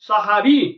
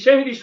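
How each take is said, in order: First: The word begins with a 'sa' sound. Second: The word begins with a 'she' sound. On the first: It means the pre-dawn meal. The speaker calls it right. "সাহারি শব্দের অর্থ হলো রাতের খাবার" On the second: It means magic. The speaker calls it wrong. "সেই শব্দটাকে আমরা বলি শেহরি এই শেহরি শব্দের অর্থ হলো জাদু"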